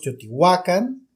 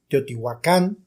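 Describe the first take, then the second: First: The stress falls on the second-to-last syllable. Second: The stress falls on the final syllable. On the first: It is the Nahuatl pronunciation. "lo estamos pronunciando en náhuatl" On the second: It is the Spanish pronunciation. "lo estamos pronunciando en español"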